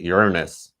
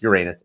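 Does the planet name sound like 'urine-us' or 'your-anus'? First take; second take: urine-us; your-anus. First: The name sounds like urine-us. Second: The name sounds like your-anus. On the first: It is the newer, more careful pronunciation. The speaker calls it wrong. "they keep trying to repronounce it" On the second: It is the plain, familiar pronunciation. The speaker calls it right. "just call it like it is"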